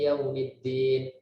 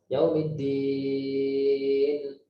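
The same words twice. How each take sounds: First: The vowel before the final n is short. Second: The vowel before the final n is long. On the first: "dua harokat saja" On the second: "dan panjang. Baca enam harokat"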